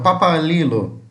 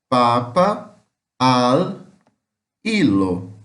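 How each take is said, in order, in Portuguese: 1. Ela é dita rápido, tudo junto. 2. Ela é dita devagar, palavra por palavra. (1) "Eles vão falar rápido, igual o inglês... tudo junto" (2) "Se eu for falar devagarzinho, vai ficar assim"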